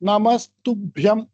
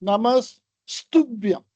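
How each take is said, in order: First: The s sound is said once. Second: The s sound is said twice. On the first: The speaker calls it right. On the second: The speaker calls it wrong.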